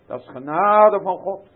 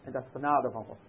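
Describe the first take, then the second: First: "genade" proclaimed loud with a rising close; emphatic repeat. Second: Said in the usual way. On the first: Shown as a demonstration. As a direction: drive "genade" home, much louder. ("genade" luid en nadrukkelijk herhaald)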